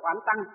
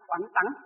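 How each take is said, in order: First: The syllable tăng is said plainly, without force. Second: The syllable tăng is said strongly and forcefully. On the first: The speaker calls it wrong. "chứ không phải oán tăng" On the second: The speaker calls it right. "tăng nó đọc mạnh lên"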